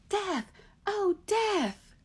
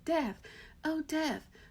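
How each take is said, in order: First: It is hollered loud and bold. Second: It is called in a weak, feeble voice.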